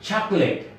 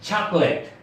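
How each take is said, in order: The two takes are said the same way.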